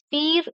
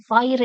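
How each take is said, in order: First: Pierre said as "peer"; French-style pronunciation. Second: Pierre said as "pire", rhyming with fire; English-style pronunciation. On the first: Teacher giving students the French name, Pierre as "peer". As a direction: say Pierre with a long "ee" vowel, like peer. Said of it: "It is pronounced as Pierre in French". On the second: Teacher showing the English reading of the name, Pierre as "pire". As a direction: say Pierre with a long "eye" vowel. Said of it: "it is pronounced, but in French". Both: Shown as a demonstration.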